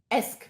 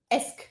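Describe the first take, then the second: The two takes are said the same way.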